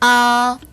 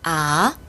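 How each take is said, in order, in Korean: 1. 음높이가 높은 채로 평평하게 유지됩니다. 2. 음높이가 중간에서 높게 올라갑니다. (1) "일 성" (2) "이 성"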